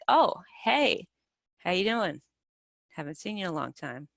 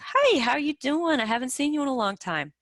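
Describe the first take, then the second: First: It sounds reluctant, as if unwelcome. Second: It sounds friendly and straightforward.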